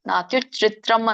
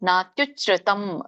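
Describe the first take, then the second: First: The word ends with an extra 'r', 'tram'. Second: The word ends with a plain 'tam' syllable. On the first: The speaker calls it wrong. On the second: The speaker calls it right.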